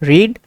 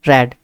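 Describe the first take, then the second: First: The vowel is long, sounding like 'reed'. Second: The vowel is short, sounding like 'red'. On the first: It is the present form of the verb. "इसकी first form है रीड" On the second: It is the past form of the verb. "इसकी second form होती है रेड"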